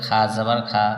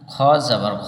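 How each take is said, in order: First: The vowel after kh is an open 'a'. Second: The vowel after kh is a rounded 'o'. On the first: The speaker calls it wrong. "অনেকেই বলে খা যাবার খা, এখানে খা যাবার খা হয় না" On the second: The speaker calls it right. "খ র উচ্চারণ হবে ওকার"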